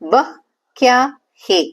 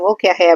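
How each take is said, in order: First: The first word is said fully as 'vah'. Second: The first word is reduced to 'vo'. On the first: "அது என்ன அப்படின்னு சொல்லி கேட்க" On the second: "pronunciation மாறும் லைட்டா... பேச்சு வழக்குல இருக்கு"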